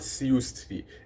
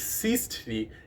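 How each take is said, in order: First: The first syllable is 'siu' with a rounded vowel. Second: The first syllable is a plain 'si'. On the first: The speaker calls it wrong. "it's not siustri" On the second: The speaker calls it right. "It's sistri in genitive case"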